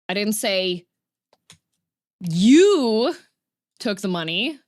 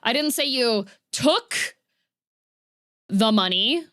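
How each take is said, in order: First: The stress falls on the word you. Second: The stress falls on the word took. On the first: Someone else took the money. "I said that somebody else took the money" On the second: A different action happened to the money. "implying that a different action happened there"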